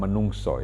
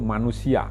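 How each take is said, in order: First: The word ends with an 'o' sound. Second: The word ends with an 'ia' sound. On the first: This is the Javanese way of saying it. "dalam bahasa Jawa kan bisa" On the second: This is the reading as written. "kalau dibaca benar ya bunyinya itu manusia"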